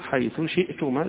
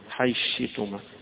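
First: The th sound is pronounced clearly before sh. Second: The th sound merges into the following sh. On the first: "له يظهر حيث شئتما" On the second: "معنى الإدغام يعني حيدخل دي في حرف واحد"

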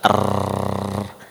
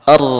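First: The r keeps vibrating in a long trill. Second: The r is short with its trill stopped. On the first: The speaker calls it wrong. "Kalau enggak ada celah itu, niscaya akan terus bergetar" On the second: The speaker calls it right. "Kalau kita membaca huruf ra dengan cara yang benar"

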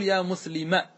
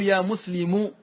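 First: The truncated word ends with a short 'a' vowel. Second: The truncated word ends without a short 'a' vowel. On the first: The dropped feminine ending is still intended. The speaker calls it right. "ستقول يا مسلمة بفتحة" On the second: The dropped ending is not intended, so it sounds masculine. The speaker calls it wrong. "تقطعه ولا تنوي حرفا"

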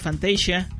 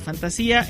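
First: The word is pronounced the English way. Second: The word is pronounced the Spanish way. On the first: "en inglés se pronuncia Fantasia" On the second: "en español sí se pronuncia Fantasía"

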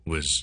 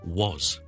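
First: The vowel is weak and reduced. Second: The vowel is full and clearly stressed. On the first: "如果我哋好弱咁咧，正常讲嘢嘅时候" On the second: "如果我哋好强咁读咧"

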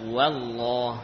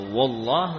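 First: The opening wa is pronounced thin and light. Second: The opening wa is pronounced thick and heavy. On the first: The speaker calls it right. "namun dibaca wallah" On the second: The speaker calls it wrong. "jadi bukan dibaca wallah"

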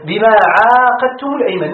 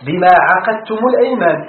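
First: The first vowel of the verb is long. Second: The middle consonant of the verb is single. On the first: "وعقدتم بالألف" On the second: "وقرئ عقدتم بالتخفيف"

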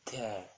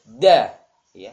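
First: The d sound is pronounced weakly and softly. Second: The d sound is pronounced strongly and firmly. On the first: The speaker calls it wrong. "Jangan dibaca walaupun sudah tepat. ... Tidak memiliki sifat syiddah" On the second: The speaker calls it right. "Jadi di antara sifat huruf dal kuat ya"

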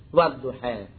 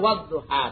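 First: The final vowel leans toward e. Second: The final vowel is a plain open a.

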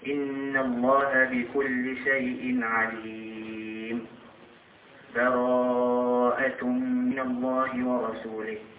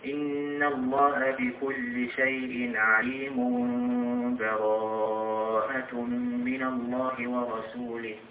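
First: A full stop with an audible breath splits it. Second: Both parts run together with no break. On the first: The first passage ends before the next begins. "نقف على آخر الأنفال ثم نأخذ نفس ونقرأ أول سورة البراءة، هذا يسمى الوقف" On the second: The two passages are joined into one stretch. "هذا وصل آخر سورة الأنفال بأول سورة البراءة"

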